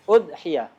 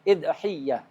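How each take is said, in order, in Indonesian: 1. Dimulai dengan u dan y-nya tunggal. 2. Dimulai dengan i dan y-nya ganda. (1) "Hamzahnya di dhammah, ya-nya di takhfif" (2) "Bisa juga di tasdid"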